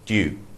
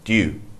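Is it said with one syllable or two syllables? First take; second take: one; one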